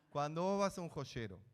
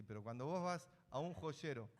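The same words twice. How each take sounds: First: "cuando vos vas a un joyero" said louder, leaning on "vas"; emphatic restart. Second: Said in the usual way. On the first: Shown as a demonstration. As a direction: press hard on "vas" to grab the class.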